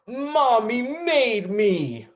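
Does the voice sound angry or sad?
angry. It is said in an angry tone. "Now we're going to do it angry"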